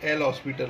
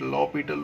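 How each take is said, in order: First: It is said as 'el hospital', with an s. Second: It is said as 'lopital', with no s. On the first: The speaker calls it wrong. "दिखता ये एल हॉस्पिटल है" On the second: The speaker calls it right. "इसको प्रोनाउंसिएट लॉपिटल rule बोला जाता है"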